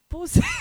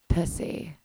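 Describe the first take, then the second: First: It is said in a plain, ordinary way. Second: It is said in a sexy, seductive way.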